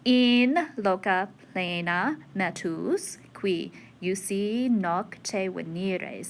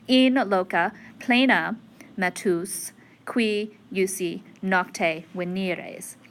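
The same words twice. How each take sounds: First: Long vowels are stressed, following the verse rhythm. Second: Normal word stress is used, like ordinary prose. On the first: "the length more" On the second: "If I were reading it like prose"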